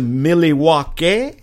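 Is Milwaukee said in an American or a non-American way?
non-American. It is said in a non-American pronunciation.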